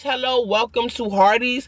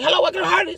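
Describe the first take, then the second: First: It is said at a normal, clear pace. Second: It is said very fast, words running together.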